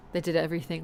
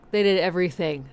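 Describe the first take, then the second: First: Said in the usual way. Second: "did" hit harder than the rest; emphatic repeat with "did" stressed. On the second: Shown as a demonstration. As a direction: lean on the word "did" in "they did everything". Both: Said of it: "like, they did everything".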